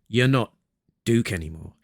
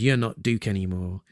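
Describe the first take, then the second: First: The sentence is said with an internal pause. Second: The sentence is said without an internal pause. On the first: The speaker calls it right. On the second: The speaker calls it wrong.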